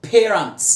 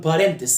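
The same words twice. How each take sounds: First: Parents said "PAY-runts", long A first; correct pronunciation. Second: Parents said "pa-REN-tes"; learner's wrong "parentes" for parents; mistaken pronunciation. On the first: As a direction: stress the "pay" in parents, weak ending. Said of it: "لونج إي وإس الجمع". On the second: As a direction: say parents with an open "pa" and extra final syllable. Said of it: "وهتقول parents". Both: Shown as a demonstration.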